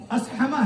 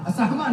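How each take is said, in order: First: "اسحمہ" with no vowel between s and h; correct As-hama. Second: "اسحمہ" with a vowel after the s; mispronounced Asahma. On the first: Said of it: "اسحمہ نہیں". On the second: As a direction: say "اسحمہ" wrongly as a-sah-ma. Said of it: "نہیں". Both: Shown as a demonstration.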